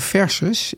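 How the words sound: The word is pronounced the Dutch way. "in plaats van versus in het Nederlands"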